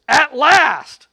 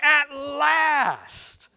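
First: Loud, high cry of relief; exclaimed. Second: High drawn-out cry of joy; exclaimed. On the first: Preacher playing Adam, loud joyful exclaim. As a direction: burst out with it, overjoyed. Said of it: "the man exclaimed". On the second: Adam seeing Eve, high joyful exclaim. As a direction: savor the relief. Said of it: "he exclaimed". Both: Acted.

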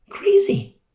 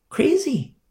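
First: Even higher, near-crying cry; anguished cry. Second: Very high, exasperated; exasperated cry. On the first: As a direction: let the voice crack on it. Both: Real, not acted. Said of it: "preacher exclaims".

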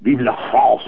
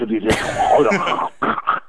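First: Mock French accent, higher; hammy French accent. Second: Slow, drawn-out mock French accent. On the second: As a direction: stretch it out in a hammy French accent. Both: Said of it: "It's just the way they speak".

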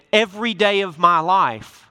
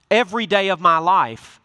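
The two takes are said the same way.

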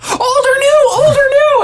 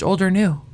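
First: Very high, loud mock shriek; freaking out. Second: Said in the usual way. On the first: Monica hears her ex's message, freaking out. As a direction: demand it again in hammed-up hysterics. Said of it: "they all freak out".

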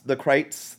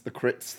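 First: "Krites" with a long i, like "kites"; "Krites" with an eye vowel; alternative pronunciation. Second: "Crits" with a short i; "Crits" with the vowel of "sit"; alternative pronunciation. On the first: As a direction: say "Krites" to rhyme with "lights". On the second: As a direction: say "Crits" to rhyme with "bits". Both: Shown as a demonstration. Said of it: "you know how the Crits".

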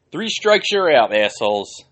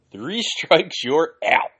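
First: High, loud taunting call; mocking shout. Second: Laughing taunt. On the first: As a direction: yell it out like an umpire mocking them. Mocking chant at offenders. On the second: Pretend. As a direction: laugh while you chant it again.

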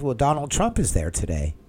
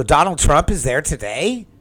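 First: Said in the usual way. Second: Surprised echo. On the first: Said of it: "And he said". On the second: Retold or imitated. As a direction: repeat it back higher and louder, amazed. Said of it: "I go".

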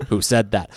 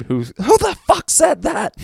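First: Said in the usual way. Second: High, slow drill-sergeant roar; enraged sergeant scream. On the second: Retold or imitated. Head sergeant demands who answered back, furious scream. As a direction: scream it like you've lost your mind. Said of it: "lost his mind and just screamed".

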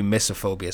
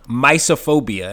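First: Misophobia said "MISS-o-phobia"; short i pronunciation. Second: Misophobia said "MY-so-phobia"; first syllable as "my". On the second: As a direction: say misophobia with a long i, like "mice". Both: Real, not acted. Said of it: "it might be misophobia".

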